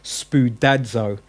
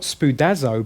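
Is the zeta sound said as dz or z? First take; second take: dz; z. First: The zeta is a dz sound. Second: The zeta is a plain z sound. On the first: The speaker calls it right. "There's a D with the Z for the zeta" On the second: The speaker calls it wrong. "So it's not spoudazo"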